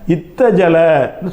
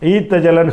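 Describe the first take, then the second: First: It starts with a short i and doubled t. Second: It starts with a long ee and single t. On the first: This is the form people actually use. "இத்தஜலன்னு சொல்கிறாங்க" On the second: This follows the general rule but is rarely used. "ஈத்தஜலன்னு சொல்லாமல்"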